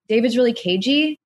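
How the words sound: The voice rises at the end, like a question.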